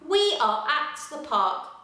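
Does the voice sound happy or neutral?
neutral. It is read in a plain, neutral voice. "fluently read our sentence"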